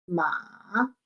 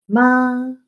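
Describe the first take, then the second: First: The pitch falls and then rises again. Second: The pitch stays high and level. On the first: It means horse. "El tercer tono, ... es descendente y luego ascendente" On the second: It means mother. "En el primer tono, ... una raya que está recta porque se sostiene"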